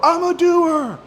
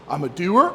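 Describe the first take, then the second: First: The voice falls at the end like a statement. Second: The voice rises at the end like a question.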